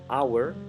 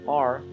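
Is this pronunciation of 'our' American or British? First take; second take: British; American. First: It is said the British way. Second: It is said the American way, like 'are'. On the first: "En Inglaterra se suele pronunciar our" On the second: "en Estados Unidos se suele pronunciar are"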